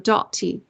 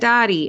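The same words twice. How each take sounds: First: The name is over-enunciated in a fake fancy accent. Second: The name is said plainly, in a Southern accent. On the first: "she over enunciates in a non Southern way" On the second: "everybody called her Aunt Dottie"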